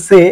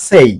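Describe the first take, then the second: First: সে with a plain "e", no glide; the mistaken সে, a single pure vowel; common mistake demo. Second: সেই with a full "ay" glide; সেই gliding from "e" into "i"; correct pronunciation demo. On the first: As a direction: say সে cut short of its final "i". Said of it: "এটাকে অনেকে বলে সে". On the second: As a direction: model সেই as "say", ending on "i". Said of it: "এটা সে না, সেই". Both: Shown as a demonstration.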